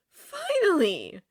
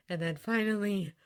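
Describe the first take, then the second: First: "finally" drawn out, high and loud; emphatic "finally". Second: Said in the usual way. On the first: A narrator's reading. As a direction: stretch "finally" with great relief. Word repeated for emphasis.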